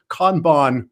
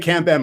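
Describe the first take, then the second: First: It is pronounced closer to the original Japanese. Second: It is pronounced in a westernized, anglicized way. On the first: The speaker calls it right. "Kanban would be the uh, the most appropriate" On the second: The speaker calls it wrong. "I used to say Kanban myself, ... more of a westernized version of the word"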